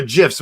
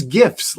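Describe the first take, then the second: First: "gifs" with a soft g, like "jifs"; soft-g pronunciation. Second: "gifs" with a hard g, as in "gift"; hard-g pronunciation. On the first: Offering the other name for the posts, "gifs" with soft g. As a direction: say "gifs" starting with a j sound. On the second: Naming Greg's Twitter posts, "gifs" with hard g. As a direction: say "gifs" starting with a hard g sound. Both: Shown as a demonstration. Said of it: "upset if you mispronounce that".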